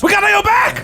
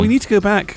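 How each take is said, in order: First: It is said loudly, with strong emphasis. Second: It is said calmly, without extra force.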